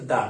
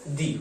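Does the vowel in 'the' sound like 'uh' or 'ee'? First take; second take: uh; ee. First: The word ends in a short 'uh' vowel. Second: The word ends in a long 'ee' vowel. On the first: It comes before a word starting with a consonant sound. "उच्चारण का से ज्ञा के बीच में होगा, तब तो इसका समान अर्थ दा होगा" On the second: It comes before a word starting with a vowel sound. "आ से आह के बीच में होगा, ... दी हो जाएगा"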